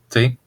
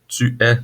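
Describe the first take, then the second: First: It is shortened to one brief syllable. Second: It is said as two full separate words. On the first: This is the shortened spoken form. "devient t" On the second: This is the standard written form. "tu es devient"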